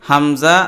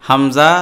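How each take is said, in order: No difference in how they are said.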